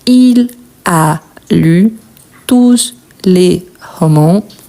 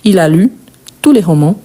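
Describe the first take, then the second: First: Said slowly word by word, with the s of tous. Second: Said smoothly as one phrase, without the s. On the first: "Si je prononce très doucement, chaque mot" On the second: "si je prononce la phrase tout entière, donc je ne prononce pas le S"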